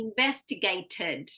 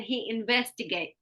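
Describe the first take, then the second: First: "investigated" with its final "ted" sounded; full past ending. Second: "investigate" stopping short of the ted; dropped past ending. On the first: Shown as a demonstration. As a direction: finish "investigated" on a clear extra syllable. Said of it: "but we need investigated". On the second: Retold or imitated. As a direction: imitate the learner leaving "ed" off "investigate". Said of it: "So what you were saying".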